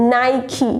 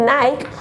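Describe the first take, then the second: First: Nike in two syllables, 'nai-kee'; correct pronunciation. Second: Nike as one syllable, 'naik'; wrong pronunciation. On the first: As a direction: slowly end Nike in a clear 'kee'. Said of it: "the correct pronunciation of". (Nikeનો સાચો ઉચ્ચાર, 'નાઇકી') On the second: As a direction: rhyme Nike with bike. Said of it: "it's not Nick and Nike". (Nikeનો ખોટો ઉચ્ચાર, 'નાઇક') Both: Shown as a demonstration.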